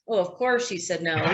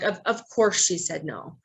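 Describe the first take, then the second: First: It is said in a dismissive tone. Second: It is said in a compassionate tone.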